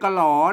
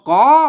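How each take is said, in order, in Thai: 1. แยกเป็นสองพยางค์ k แล้วตามด้วย l 2. เริ่มด้วยเสียง k ธรรมดา ไม่มี l (1) "ไม่ใช่กะหลอ" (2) "มาอ่านว่ากอ"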